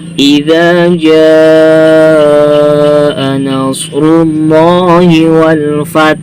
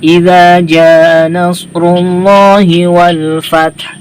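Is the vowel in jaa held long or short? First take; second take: long; short. First: The vowel in jaa is held long. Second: The vowel in jaa is held short. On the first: The speaker calls it right. "yang harusnya dibaca panjang empat atau enam harokat" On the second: The speaker calls it wrong. "Biasa saja ya, kayak mad asli itu dibacanya"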